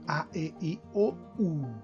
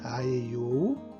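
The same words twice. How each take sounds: First: Each vowel starts with a glottal catch. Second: Each vowel starts smoothly, without a catch. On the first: This is the German way. "Alemão" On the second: This is the Portuguese way. "Português"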